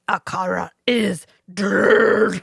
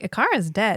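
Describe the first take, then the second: First: It is said with heavy, theatrical intensity. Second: It is said flatly, like ordinary talk. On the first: The line is fully committed to, like voice acting. "he's like" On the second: The line is delivered with little effort. "he really could have been like"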